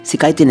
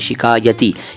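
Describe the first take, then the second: First: The word begins with a plain s sound. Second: The word begins with an sh sound. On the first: The speaker calls it wrong. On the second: The speaker calls it right.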